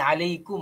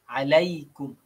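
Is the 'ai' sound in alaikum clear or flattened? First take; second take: flattened; clear. First: The 'ai' glide is flattened and rushed. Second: The 'ai' glide is said clearly and fully. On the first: The speaker calls it wrong. "Dia tak boleh alaikum ... Mungkin dia laju" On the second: The speaker calls it right. "Dia umpama. AI, ai, alai, alai"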